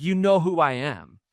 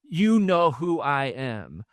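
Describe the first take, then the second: First: Said in the usual way. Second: Each word slowed and weighed out; slow emphatic repeat. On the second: Shown as a demonstration. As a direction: lean on "You know who I am" slowly.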